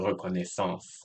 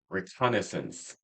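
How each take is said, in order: First: The word is pronounced the French way. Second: The word is pronounced the English way.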